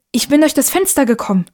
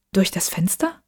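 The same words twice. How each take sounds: First: Higher, falling statement, stress on DURCH; eager explanation. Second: Softer question, rising on FENSTER; questioning echo. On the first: Boy explains his arrival to mother, eager. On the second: Mother questions her son's story, softly puzzled. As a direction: query DURCH DAS FENSTER softly, rising at the end. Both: Acted.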